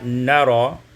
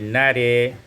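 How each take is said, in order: First: The final vowel is an open 'a' sound. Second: The final vowel is fronted toward 'e'.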